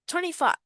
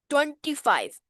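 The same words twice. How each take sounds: First: It is said in the speaker's usual accent. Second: It is said in an Indian accent.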